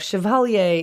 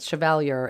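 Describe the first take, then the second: First: The word is pronounced the French way. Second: The word is pronounced the English way. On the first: "chevalier is a French pronunciation" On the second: "Chevalier is another way to say it"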